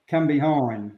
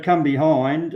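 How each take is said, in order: First: Said in the usual way. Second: "come behind" said with emphasis; stress on COME BEHIND. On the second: Shown as a demonstration. Trainer teaching the dog command, "come behind" emphasised. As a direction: lean a little harder on both words, "come behind". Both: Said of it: "I'll just emphasise that word".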